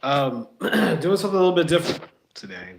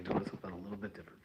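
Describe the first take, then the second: First: Said in the usual way. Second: Quick breathy whispered repeat. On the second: Shown as a demonstration. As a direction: whisper it fast as an aside. Repeats the line as an aside.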